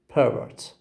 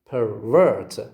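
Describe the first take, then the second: First: The stress is on the first syllable. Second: The stress is on the second syllable. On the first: It is a noun. "we have to have the first syllable as the stressed syllable" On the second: It is a verb. "The verb has got the stress on the second syllable"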